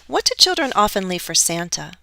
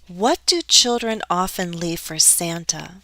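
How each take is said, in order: First: The sentence is spoken quickly. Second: The sentence is spoken slowly.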